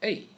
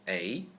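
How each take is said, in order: First: The pitch falls sharply from high to low. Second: The pitch rises from middle to high.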